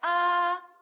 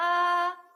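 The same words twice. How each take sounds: First: The pitch stays high and level. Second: The pitch stays high and level.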